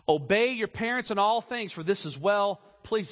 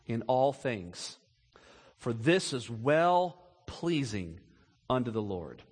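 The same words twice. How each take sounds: First: Said in the usual way. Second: Slow solemn scripture. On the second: Shown as a demonstration. Preacher reading the verse to the congregation, slow and hushed. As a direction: let the verse sink in slowly. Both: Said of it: "here it is, catch it now".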